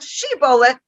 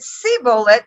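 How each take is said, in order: First: The word begins with an sh sound. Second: The word begins with an s sound. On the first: The speaker is not from that tribe. The speaker calls it right. "not being able to pronounce it correctly" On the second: The speaker is from the tribe that cannot say sh. The speaker calls it wrong. "if they said sibolet instead of shibolet"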